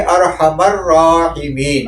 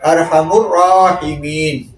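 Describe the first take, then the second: First: The m is followed by an 'a' vowel. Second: The m is followed by a 'u' vowel. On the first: The name is used to call upon God directly. "उस मीम पे फिर हम ज़बर पढ़ेंगे" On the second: The name is quoted as it stands in a narration. "इससे मैंने पेश पढ़ा"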